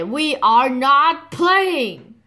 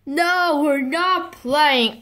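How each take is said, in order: First: "We are not playing" slow, each word separate; emphatic repetition. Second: High, drawn-out "we're not playing"; exasperated refusal. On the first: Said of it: "What did I say?". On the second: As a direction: call off the game, stretching the words. Mommy calls off the game.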